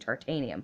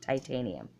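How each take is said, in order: First: The first syllable sounds like 'tar'. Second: The first syllable sounds like 'tie'. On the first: The speaker calls it wrong. "I'm trying to say tartanium" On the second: The speaker calls it right. "but it's titanium"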